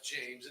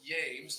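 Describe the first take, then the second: First: The word begins with a J sound. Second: The word begins with a Y sound. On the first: The speaker calls it wrong. "not James" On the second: The speaker calls it right. "there's no phonetic pronunciation for Jah in Hebrew. So it's James"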